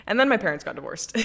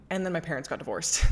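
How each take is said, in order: First: Louder, laughing disbelief; repeating the bad news with an incredulous laugh; laughing emphatic repeat. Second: Said in the usual way. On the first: Real, not acted. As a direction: say it again louder through a laugh.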